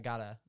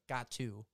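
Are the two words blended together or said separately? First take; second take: blended; separately. First: The two words blend into one reduced word. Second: The two words are said separately and fully. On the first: This is how the speaker normally says it. "I always say I gotta" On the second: This is how the speaker does not say it. "I don't say like got to"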